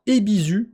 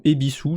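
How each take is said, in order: First: "Ebisu" with a buzzed z and a French u ending, pitched up; "Ebisu" read the French way, eh-bee-zü; French-style pronunciation. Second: "Ebisu" with a hissed s and an "ou" ending; "Ebisu" offered as eh-bee-soo, in the usual pitch; alternative pronunciation. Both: Shown as a demonstration. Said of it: "je sais pas comment faut prononcer".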